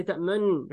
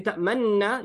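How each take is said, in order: First: تَأْمَنْ with lips rounded a little, mouth open in a circle; تَأْمَنْ recited with the lips pushed into a small circle; correct recitation. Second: تَأْمَنَّا said with a plain noon, lips not rounded; تَأْمَنَّا without the rounded mouth; wrong reading. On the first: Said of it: "make your mouth a little open in a circle". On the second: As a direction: read تَأْمَنَّا straight through, no lip rounding. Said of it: "You don't say". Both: Shown as a demonstration.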